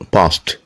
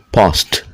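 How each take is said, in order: First: The ending is a t sound. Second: The ending is a t sound.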